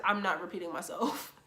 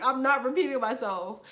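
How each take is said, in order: First: Said in the usual way. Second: Louder, laughing-edged repeat, stress on not; defiant retort. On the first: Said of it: "answering the senior girl". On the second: Retold or imitated. To the senior girl at the mic, a louder defiant repeat. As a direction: throw it back, refusing flatly with a grin.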